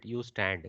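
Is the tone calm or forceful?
calm. It is said in a calm, flat way. The speaker calls it right. "this is more like a sedate statement"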